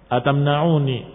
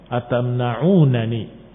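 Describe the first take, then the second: First: The n sound near the end occurs once. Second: The n sound near the end occurs twice. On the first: The speaker calls it wrong. "Dalam beberapa manuskrip disebutkan dengan satu nun" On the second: The speaker calls it right. "yang lebih tepat adalah yang dengan dua nun"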